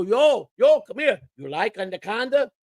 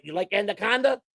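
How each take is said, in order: First: High, taunting call across the locker room; mock the clubhouse guy, grinning; teasing player voice. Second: Raised, taunting question; teasing player voice again. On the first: Teasing player calls out to the clubhouse manager, high and taunting. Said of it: "And he'd go". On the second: Retold or imitated. Naked player taunts the clubhouse manager again, raised and teasing. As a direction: tease him, grinning. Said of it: "He'd sit there naked".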